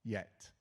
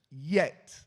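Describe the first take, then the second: First: Said in the usual way. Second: YET punched out very loud; a big, booming emphasis on YET; stressed YET. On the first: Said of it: "He even really stressed". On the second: Retold or imitated. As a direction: hit the word YET hard, far louder than usual. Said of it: "He even really stressed. He goes".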